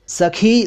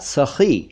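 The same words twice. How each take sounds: First: The middle consonant is an aspirated stop. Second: The middle consonant is a rough fricative. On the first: It means female friend. "सखी संस्कृत से आया हुआ है" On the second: It means generous. "ख के नीचे नुक्ता लगा दें तो वो बनेगा"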